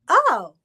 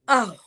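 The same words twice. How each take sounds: First: It sounds surprised. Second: It sounds angry.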